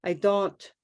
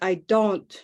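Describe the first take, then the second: First: The vowel in don't stays flat, unmoving. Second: The same.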